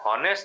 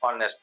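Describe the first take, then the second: First: The word begins with an h sound. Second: The word begins directly with a vowel. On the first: The speaker calls it wrong. "આને હોનેસ્ટ નહીં બોલાય" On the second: The speaker calls it right. "ઓનેસ્ટ બોલાશે"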